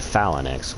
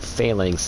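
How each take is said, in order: First: The word is said with some extra sounds. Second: The word is said without the extra sounds. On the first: This is how it was learned from a game. The speaker calls it wrong. "So I used to say Phalanx, which does sound cooler" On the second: This is the standard pronunciation. The speaker calls it right. "is the correct pronunciation"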